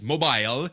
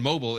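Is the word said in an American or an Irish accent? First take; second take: Irish; American. First: The word is said with an Irish pronunciation. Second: The word is said with an American pronunciation. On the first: "it's mobile" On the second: "instead of saying mobile"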